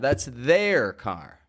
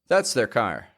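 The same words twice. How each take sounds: First: 'Their' is said fully and with emphasis. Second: 'Their' is said quietly, quickly and reduced. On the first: "If you are emphasizing there, it's going to sound strong" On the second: "if we say it quieter and quicker"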